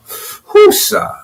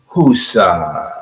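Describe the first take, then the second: First: High breathy whoosah, let it all out; calming exhale. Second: Low, soft whoosah, settling down; calming exhale. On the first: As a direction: blow out the tension on a high, airy breath. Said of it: "I'm bringing it down now". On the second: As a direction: sink into a low, quiet release. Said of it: "Everybody do it with me". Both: Shown as a demonstration.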